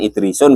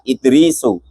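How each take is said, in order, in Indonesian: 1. Kata ini berakhir dengan bunyi n yang ditambahkan. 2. Kata ini berakhir dengan vokal, tanpa n. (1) "Idrisun gitu enggak boleh" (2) "yang dibaca tanpa tanwin itu Idrisu"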